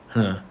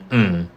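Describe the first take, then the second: First: The consonant is voiceless, without throat vibration. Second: The consonant is voiced, with throat vibration. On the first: "you don't feel that vibration in on your throat" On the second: "instead of saying mm"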